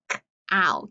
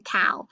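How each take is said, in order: First: "k-, ow" split after the first consonant; teacher segmenting "k-, ow" for a reader; sounded out in parts. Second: Said in the usual way. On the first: Shown as a demonstration. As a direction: isolate the k, then say "ow". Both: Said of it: "let's break that apart".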